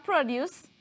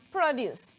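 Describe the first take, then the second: First: "produce" as the noun PRO-duce, stress on the first syllable, short o. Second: "produce" as the verb pro-DUCE, stress on the second syllable, drawn out. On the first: Teacher contrasting the noun for students, stress on the first syllable. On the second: Teacher contrasting the verb for students, stress on the second syllable. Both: Shown as a demonstration. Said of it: "you can pronounce it two ways".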